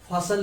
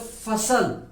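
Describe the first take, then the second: First: It begins with a breathy p sound. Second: It begins with an f sound from teeth and lip. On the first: The speaker calls it wrong. "हम फसल नहीं बोलते" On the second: The speaker calls it right. "हम बोलते फसल"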